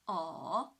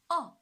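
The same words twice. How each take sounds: First: The pitch dips low, then rises. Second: The pitch falls sharply from high to low. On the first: "the third tone, from two to one to four" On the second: "the fourth tone. From five to one"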